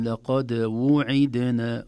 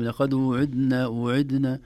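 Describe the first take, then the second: First: وعدنا langsam als ′wuʕidna′, jeder Vokal klar; korrekte Aussprache. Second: وعدنا schnell als ′idna′, Vokale verschluckt; verschluckte Aussprache. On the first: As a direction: dehne وعدنا und trenne Damma und Kasra. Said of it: "ولكن". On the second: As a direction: sprich وعدنا hastig und verschliffen. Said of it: "قد تخرج كلمة". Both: Shown as a demonstration.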